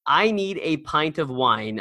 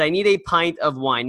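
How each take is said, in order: First: Said in the usual way. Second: A hint of a French accent on this line. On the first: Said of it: "although he said it in French". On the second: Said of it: "or at least with a French accent".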